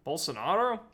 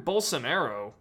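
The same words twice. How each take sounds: First: Bolsonaro with "ah" in the third syllable, tapped r; second pronunciation attempt. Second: Bolsonaro with "air" in the third syllable; unsure Bolsonaro, Anglicized to rhyme with "pharaoh"; uncertain name pronunciation. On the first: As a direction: say Bolsonaro as "bol-so-NAH-do", questioning. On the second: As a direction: say Bolsonaro as "bol-so-NAIR-oh". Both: Shown as a demonstration. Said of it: "I don't speak Portuguese".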